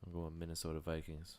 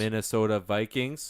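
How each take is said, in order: First: Low, soft mumble; barely audible pick; mumbled. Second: Slow, louder repeat; to someone hard of hearing. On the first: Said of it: "Can you speak up". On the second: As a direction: spell it out slowly. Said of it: "Can you speak up, please?". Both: Real, not acted.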